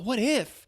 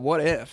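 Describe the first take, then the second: First: It sounds hopeful and positive. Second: It sounds doubtful and negative. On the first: Great things are possible. The speaker calls it right. "consider it in a positive light" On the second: Great things are unlikely. The speaker calls it wrong. "Not like"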